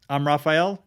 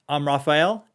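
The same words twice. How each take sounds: First: The voice has little room sound around it. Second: The voice has much more room sound around it. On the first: "This is the Shure M V seven test" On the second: "it picks up way more ambient and room tone"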